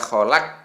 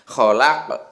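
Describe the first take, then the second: First: The final q stops flat without a bounce. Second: The final q bounces with a short echo. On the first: The speaker calls it wrong. "tidak boleh dibaca kholaq. Nah, gitu tidak boleh" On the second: The speaker calls it right. "Harus ada ke-nya itu"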